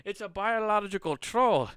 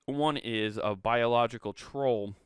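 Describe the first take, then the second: First: High, loud Scottish burr; excited mock-Scot announcing a monster; mock Scottish accent. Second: Said in the usual way. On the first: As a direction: put on a hammed-up Scottish voice. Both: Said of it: "I'll stop with the fucking Scottish accent".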